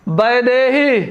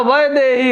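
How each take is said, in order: First: वैदेही begun with b, baidehī; wrong pronunciation. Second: वैदेही begun with v, vaidehī; correct pronunciation. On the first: Teacher quoting the faulty form, wrong pronunciation. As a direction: say वैदेही as BAI-de-hī. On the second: Teacher correcting the spelling, correct pronunciation. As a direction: say वैदेही as VAI-de-hī. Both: Shown as a demonstration. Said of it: "लेकिन यहाँ वैदेही होगा".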